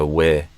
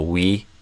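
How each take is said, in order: First: The vowel is relaxed, like in 'with'. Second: The vowel is tense, like in 'we'. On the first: The speaker calls it right. "I think I'd do a more relaxed vowel sound" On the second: The speaker calls it wrong. "instead of a we"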